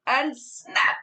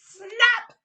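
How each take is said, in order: First: Said in the usual way. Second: A loud high sudden Snap; big snap. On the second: Shown as a demonstration. Teacher redoes the crocodile's bite for the children, loud sudden snap. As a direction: snap it out to make them jump.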